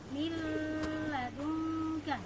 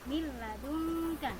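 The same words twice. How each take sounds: First: A nasal hum is held before the l. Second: It flows into the l without nasal hum. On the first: The speaker calls it wrong. "tidak boleh dibaca" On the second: The speaker calls it right. "Yang betul membacanya adalah miladunka"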